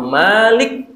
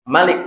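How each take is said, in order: First: The first vowel is said long. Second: The first vowel is said short. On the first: The word means the one who holds power over it. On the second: The word means the one who reigns as king.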